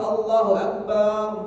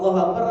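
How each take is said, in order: First: The second syllable of Akbar is drawn out long. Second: The second syllable of Akbar is kept short. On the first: It says God is a drum. The speaker calls it wrong. "baknya dipanjangin" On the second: It states that God is great. The speaker calls it right. "kalau Allahu Akbar adalah Allah Maha besar"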